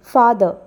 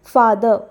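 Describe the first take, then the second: The two takes are said the same way.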